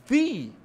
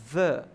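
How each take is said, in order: First: THE with a long ee vowel, high and loud; THE as "thee". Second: THE with a short uh vowel, punched loud; THE as "thuh". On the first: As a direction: stretch THE out as "theee". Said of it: "com som de i". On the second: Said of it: "eu já vou pronunciar diferente". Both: Shown as a demonstration.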